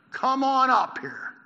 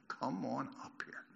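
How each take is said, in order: First: Loud, high, stretched-out call; shouted challenge. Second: Slow, low, much softer quote; retold yell, hushed. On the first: Acted. Men from the outpost to Jonathan, slow loud shout. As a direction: shout it slowly down to the climber. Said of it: "men from the outpost shouted to Jonathan". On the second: Preacher recalling the soldiers' four words, slow and hushed. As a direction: repeat the soldiers' yell slowly and quietly. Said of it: "The soldiers yelled four words".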